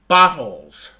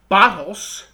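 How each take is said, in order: First: The word ends with a buzzing Z sound. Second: The word ends with a hissing S sound. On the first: The speaker calls it right. "I'm saying bottles with a Z" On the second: The speaker calls it wrong. "I'm not saying bottles"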